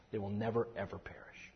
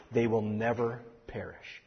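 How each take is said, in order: First: Hushed emphasis. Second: Said in the usual way. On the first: Shown as a demonstration. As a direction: drop to a soft breathy whisper on "never, ever perish". Whispered repeat of promise.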